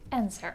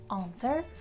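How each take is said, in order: First: The first vowel is a short front eh. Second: The first vowel is a long open ah. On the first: "American people will say eh" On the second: "British people will say ah"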